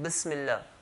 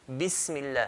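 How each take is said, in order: First: The first vowel is muffled, not a clear i. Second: The first vowel is a clear i sound. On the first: The speaker calls it wrong. "it doesn't sound like a kasra" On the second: The speaker calls it right. "it should sound like a clear kasra"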